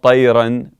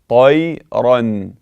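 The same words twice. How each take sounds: First: The r sound is light and thin. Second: The r sound is heavy and full. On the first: The speaker calls it wrong. "Not طيرا" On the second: The speaker calls it right. "it must be مفخم"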